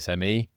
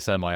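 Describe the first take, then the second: First: The word is said with a British pronunciation. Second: The word is said with an American pronunciation. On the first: The speaker calls it right. "I say semi" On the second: The speaker calls it wrong. "I wouldn't say semi"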